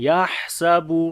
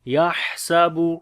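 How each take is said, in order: No difference in how they are said.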